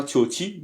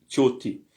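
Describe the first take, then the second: First: Tioti as the mistaken version, ending lifted; wrong pronunciation. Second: Tioti as the corrected version, settled ending; correct pronunciation. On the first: Teacher warning students about a mistake, wrong pronunciation. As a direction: say tioti as the error to be avoided. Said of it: "C'est pas tioti". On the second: Teacher correcting students on the plural, correct pronunciation. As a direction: say tioti as the model to copy. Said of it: "mais tioti". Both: Shown as a demonstration.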